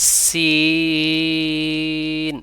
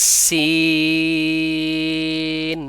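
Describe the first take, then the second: No difference in how they are said.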